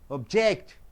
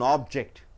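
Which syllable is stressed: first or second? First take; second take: second; first. First: The stress is on the second syllable. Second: The stress is on the first syllable. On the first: It is a verb meaning to go against. "Suppose if you stress on ject" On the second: It is a noun meaning a thing.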